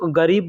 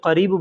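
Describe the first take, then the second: First: It begins with a voiced g sound. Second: It begins with a deep back q sound. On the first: "बड़ा काफ जो होता है ना उसको लोग ग की तरह से इस्तेमाल करते हैं" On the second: "बड़ा काफ से लिखा जाता है तो करीब बोला जाता है"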